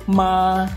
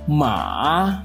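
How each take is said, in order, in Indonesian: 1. Nada tetap tinggi, datar, dan panjang. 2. Nada turun ke rendah, lalu naik lagi. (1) "Nada pertama adalah nada suara tinggi, datar, dan panjang" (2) "dimulai dari nada setengah rendah ke nada rendah, kemudian naik ke nada setengah tinggi"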